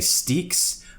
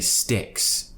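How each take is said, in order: First: The vowel is a long, tense ee sound. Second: The vowel is a short, relaxed i sound. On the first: The speaker calls it wrong. "We don't want to say steaks" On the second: The speaker calls it right. "We want to say sticks"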